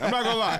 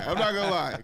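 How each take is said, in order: First: "I'm not gonna lie" said high and loud through laughter; real laughter over "I'm not gonna lie"; laughing. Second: Said in the usual way. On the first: Real, not acted. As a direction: laugh it out, still cracking up. Laughs, then repeats the phrase.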